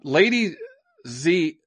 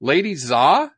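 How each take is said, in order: First: "Lady Z" stopping short on the Z; "Lady Z" with a hesitant pause before the Z; halting first try at a Chinese name. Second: "Lady Xia" with Xia said as English "zah"; "Lady Xia" said carefully with an English "z" sound and a rising end; foreigner speaking mandarin. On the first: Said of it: "oh, how do I even say that?". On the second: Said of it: "my, my Chinese isn't very good". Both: Shown as a demonstration.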